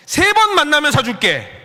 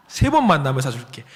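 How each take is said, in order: First: High loud teasing bargain; playful promise. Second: Said in the usual way. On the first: Retold or imitated. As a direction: bargain with the kids cheekily. Pastor answers kids' request.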